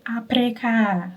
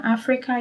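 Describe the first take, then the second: First: "Africa." said as "apreka", a P replacing the F, slowed; imitating the Filipino "Africa." as "apreka". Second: Said in the usual way. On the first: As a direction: turn the F into a P: "apreka". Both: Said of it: "They will say".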